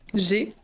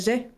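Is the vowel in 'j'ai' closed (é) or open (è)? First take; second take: closed; open. First: The vowel is a closed é sound. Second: The vowel is an open è sound. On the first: The speaker calls it right. "A I égale E" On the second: The speaker calls it wrong. "pas j'ai"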